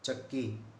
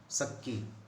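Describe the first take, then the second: First: The word begins with a 'ch' sound. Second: The word begins with an 's' sound. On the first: "च और छ का जो उच्चारण है" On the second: "प्राय स हो जाता है राजस्थानी भाषा में"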